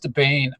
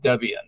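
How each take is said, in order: First: The name ends in a single 'bane' syllable. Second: The name ends in two syllables, 'bee-an'. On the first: The speaker calls it wrong. "I started calling it Debane" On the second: The speaker calls it right. "I found it was Debian"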